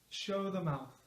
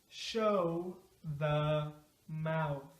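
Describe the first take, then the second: First: The phrase is said quickly, at natural speed. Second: The phrase is said slowly and carefully. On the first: "now at a natural speed" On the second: "Let's say it slow at first"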